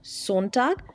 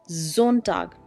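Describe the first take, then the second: First: The word begins with a hissing S sound. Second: The word begins with a buzzing Z sound. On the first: The speaker calls it wrong. "Not Sonntag" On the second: The speaker calls it right.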